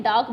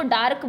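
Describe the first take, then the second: First: डार्क said as "dak", r dropped; silent r. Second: डार्क with a clear rolled r sound; pronounced with the r. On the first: Teacher showing students the correct way, r left silent. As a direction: say डार्क with no r, like "daak". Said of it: "डार्क में आर की sound नहीं आती". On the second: Teacher showing how kids wrongly say it, with the r sounded. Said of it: "डार्क नहीं है". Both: Shown as a demonstration.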